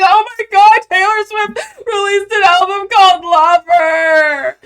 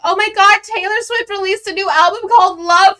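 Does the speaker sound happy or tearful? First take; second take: tearful; happy. First: It sounds tearful, like bawling and crying. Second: It sounds super happy and excited.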